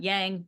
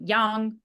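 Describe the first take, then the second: First: The word has an English pronunciation. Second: The word has a Chinese pronunciation. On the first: "not yang" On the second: "trying to say yang with the accent"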